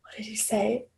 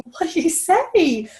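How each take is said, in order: First: Whispered aside; whispering the question while searching her memory. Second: High, slow voiced question; asking the stylist in a high, slow voice; curious question. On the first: Real, not acted. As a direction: drop to a breathy whisper to recall. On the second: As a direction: lift it up and draw it out. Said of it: "I said".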